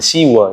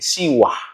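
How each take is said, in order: First: The word ends on a plain vowel. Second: The word ends with a breathy h sound. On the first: The speaker calls it wrong. "Bukan siwa ya" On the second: The speaker calls it right. "Ada H-nya di belakang"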